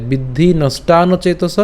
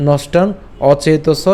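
First: "বিদ্ধি নষ্টান্ন চেতস" slowly, n linked on; joined pronunciation. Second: "নষ্টান", pause, then "অচেতস"; split pronunciation. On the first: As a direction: run নষ্টান্ন into চেতস without a stop. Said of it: "একসাথে". ("নষ্টান্ন চেতস" একসাথে ধীরে উচ্চারণ) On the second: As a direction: separate নষ্টান from an initial অ in অচেতস. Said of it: "অথবা কেউ যদি চান". ("নষ্টান অচেতস" ভেঙে উচ্চারণ) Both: Shown as a demonstration.

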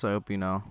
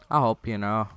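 First: Said in the usual way. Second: Plain. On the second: Shown as a demonstration. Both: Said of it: "repeated louder".

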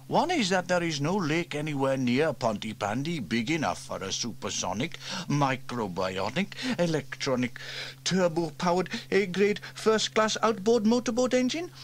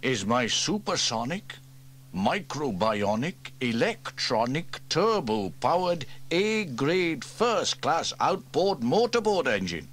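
First: Higher, louder with each mocking word; boy teasing his uncle's boast; mocking repeat by James. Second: Building, louder proud list; proud grand build. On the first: A narrator's reading. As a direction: parrot his boast back, climbing. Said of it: "said James". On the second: Acted. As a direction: build each word grander. Proud listing of grand names.

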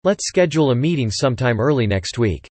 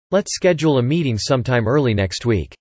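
No difference in how they are said.

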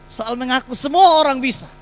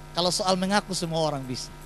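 First: Louder and higher, rising to the punch; emphatic repeat. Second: Said in the usual way. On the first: Shown as a demonstration. Pastor repeats the line to the congregation, emphatic and louder. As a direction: drive the point home on the repeat.

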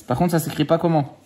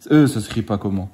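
First: Said in the usual way. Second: Put-on "ça s'écrit pas comment" in a teasing, lightly childish voice; mock child talk. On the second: Dad teasing his son about his spelling, in a mock child voice. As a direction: mirror the kid's wrong wording back at him. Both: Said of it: "si je te parle comme ça".

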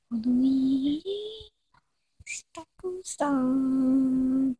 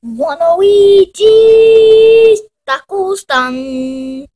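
First: Soft, slow, distant repeat; the name faintly repeated from afar; quiet echo. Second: Slow announcement. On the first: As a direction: murmur it like a far echo. Echoed quietly. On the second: Announcing the taco stand. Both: Acted.

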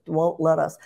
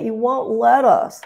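First: Said in the usual way. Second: High, slow whiny mock-child voice; whining child. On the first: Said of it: "What is this". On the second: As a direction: drag it out in a sulky whine. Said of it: "he sounded like a whining child".

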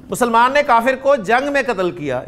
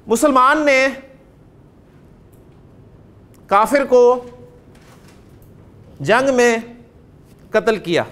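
First: Said in the usual way. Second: Word by word, with long pauses between; slow dictation. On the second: Shown as a demonstration. Teacher dictating a sentence to students, slow and word by word. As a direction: dictate each word slowly so the class can write it. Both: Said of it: "अब जुमला बोलता हूँ".

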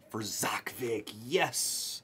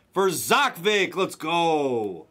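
First: Slow, whispered celebration; hushed whisper. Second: Drawn-out, fully voiced celebration; excited announcement. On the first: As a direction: whisper it, savouring the big hit. Whispered reveal of a big hit. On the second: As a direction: call out the winner slowly, triumphantly. Voiced celebration after whispered take. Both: Real, not acted.

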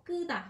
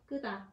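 First: "끄다" with a tight, tense unaspirated kk; "끄다" starting on a stiff, tense k. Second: "끄다" said with a tense, unaspirated kk; "끄다" on a stiff, tense k. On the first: Teacher shows the tense consonant to the class. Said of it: "âm căng ấy". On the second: Teacher repeats the tense 끄다 for students. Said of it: "âm căng, 끄다". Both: Shown as a demonstration.

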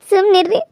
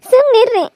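First: Said in the usual way. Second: Insistent. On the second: Acted. Wife telling her crying husband to stop, more insistently. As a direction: press ಸುಮ್ನಿರ್ರಿ harder the second time.

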